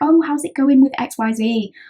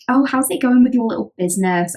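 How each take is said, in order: First: It sounds genuinely interested and warm. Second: It sounds snarky and mocking.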